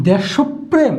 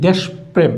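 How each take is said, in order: First: Slow "desho-prem" for দেশপ্রেম; linking o. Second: Slow "desh-prem" for দেশপ্রেম; slowly, দেশ closed on শ before প্রেম; no linking o. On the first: Teacher asks which is right, দেশপ্রেম slowly with linking o. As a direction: draw out দেশপ্রেম with an o after শ. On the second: Teacher asks which is right, দেশপ্রেম slowly without linking o. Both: Shown as a demonstration. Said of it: "উচ্চারণ কি হবে".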